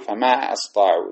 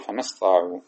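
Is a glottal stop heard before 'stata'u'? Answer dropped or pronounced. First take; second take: pronounced; dropped. First: A glottal stop with a short a starts the verb. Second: The verb links to the word before without a stop. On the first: The speaker calls it wrong. "وما نقول فما أستطاعوا، لا" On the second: The speaker calls it right. "وإنما نقول فما استطاعوا"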